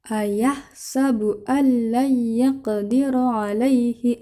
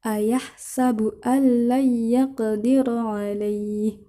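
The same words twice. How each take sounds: First: The final vowel is short and flows onward. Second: The final vowel is lengthened before a stop. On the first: The reading continues without stopping. "Dibaca pendek, tidak panjang. Karena bukan waqaf" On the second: The reader stops here to take a breath. "Contoh yang diwaqafkan"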